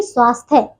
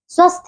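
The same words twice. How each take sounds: First: Said in the usual way. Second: स्वस्थ with a short a, final y dropped; mispronounced स्वास्थ्य. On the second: Shown as a demonstration. Teacher shows pupils the error, short vowel in स्वस्थ. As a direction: say "svasth" for स्वास्थ्य. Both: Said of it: "नहीं".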